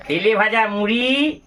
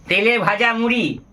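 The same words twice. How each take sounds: First: Savouring. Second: Said in the usual way. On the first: Real, not acted. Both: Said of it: "এই দেখুন সেই জল খাবার".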